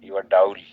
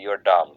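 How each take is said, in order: First: Dull has a gliding ow-like vowel. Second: Dull has a short plain vowel. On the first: The speaker calls it wrong. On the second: The speaker calls it right.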